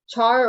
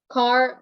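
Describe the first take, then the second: First: The word begins with a ch sound. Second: The word begins with a k sound. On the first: "I think char is more common" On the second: "you could pronounce it anyway"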